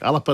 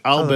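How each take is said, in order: First: The name gets a soft Gaelic pronunciation. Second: The name gets a plain English pronunciation. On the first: This is the Gaelic form of the name. "Alapa in the Gaelic, It's a soft uh, pronunciation from Gaelic" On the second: This is the English form of the name. "Alba in English"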